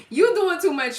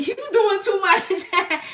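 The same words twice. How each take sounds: First: Loud, high laughing scold at normal pace; laughing again. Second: Slow, loud, high laughing scold. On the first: Streamer repeats to the viewer, laughing, quicker. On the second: Streamer laughs at a viewer overdoing it, loud and slow. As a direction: laugh it out slowly. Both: Real, not acted.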